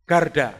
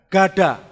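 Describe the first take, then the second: First: "garda" said with an added r, as garda; deliberate mispronunciation. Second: "Gada" said firmly with no r, as ga-da; correct pronunciation. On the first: Preacher mispronounces the word for his congregation, with an added r. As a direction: slip in the r: garda. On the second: Preacher corrects himself for the congregation, firmly with no r. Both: Shown as a demonstration. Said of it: "Kok garda?".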